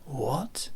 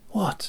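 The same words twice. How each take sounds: First: Mimicking the sailor, softer with a rising tune; mocking mimicry. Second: High, sharp startled what; sailor's startled what; startled question. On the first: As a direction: echo his what back at him, mockingly. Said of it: "Gusoff repeated, mimicking him". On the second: Acted. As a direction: blurt it out, caught off guard. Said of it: "mimicking him".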